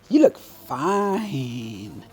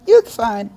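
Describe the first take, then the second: First: It sounds warm and admiring. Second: It sounds flat and dismissive. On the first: The looks are genuinely attractive. The speaker calls it right. "that is a slightly different thing" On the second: The looks are only passable. The speaker calls it wrong. "then that's that's no good"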